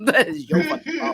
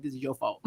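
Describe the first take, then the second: First: Playful accusation bursting into laughs; laughing mock blame. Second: Low, soft retold accusation; quietly accusing, playfully; muted mock blame. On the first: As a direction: blame them in jest while cracking up. Retold blaming of dad, escalated repeat. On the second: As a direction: blame them under your breath, in jest. Retold blaming of dad, first take.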